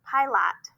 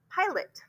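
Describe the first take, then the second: First: PILOT as pie-LOT, full "ah" in LOT; wrong chunked reading. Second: PILOT as PIE-lit, high start, falling softly; higher PIE, quick weak "lit" in PILOT; schwa pronunciation. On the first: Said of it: "I for an open syllable and lot". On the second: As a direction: say PILOT right, second vowel reduced to a short "ih". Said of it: "try it schwa". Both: Shown as a demonstration.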